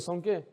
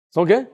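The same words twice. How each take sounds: First: Quiet falling question; quiet prompting question. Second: Louder ask with rising end; loud rising question to the church; loud prompting question. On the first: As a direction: murmur the question, trailing down. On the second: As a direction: call it out to the congregation. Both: Shown as a demonstration.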